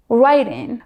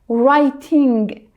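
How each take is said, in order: First: The final G sound is dropped. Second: The final G sound is fully pronounced. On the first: "Americans drop the G" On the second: "I used to be like"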